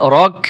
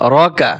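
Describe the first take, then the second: First: The word ends with a consonant. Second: The word ends with a vowel. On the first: The reading stops at this word. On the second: The reading continues without a stop.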